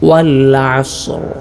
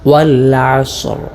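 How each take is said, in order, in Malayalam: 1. s ശബ്ദം ചീറുന്നു, r വ്യക്തമാണ്. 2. s ശബ്ദം ചീറുന്നു, r വ്യക്തമാണ്.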